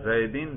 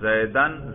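First: The word ends in -in. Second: The word ends in -an. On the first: The word follows a preposition. "یا جر" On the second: The word is the object of the verb. "نصب پڑھ رہے ہیں"

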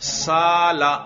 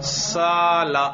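No difference in how they are said.

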